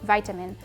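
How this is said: It is said the American and Australian way. The speaker calls it wrong. "America... and Australia... says vitamin. I don't like it"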